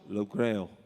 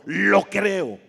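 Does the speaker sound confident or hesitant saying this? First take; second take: hesitant; confident. First: It is said weakly, without conviction. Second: It is said firmly, with strong certainty. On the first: The speaker is not truly sure. The speaker calls it wrong. "No digamos" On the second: The speaker fully believes it. The speaker calls it right. "Así afirmativo, con fe, con confianza, con certeza, con, con seguridad"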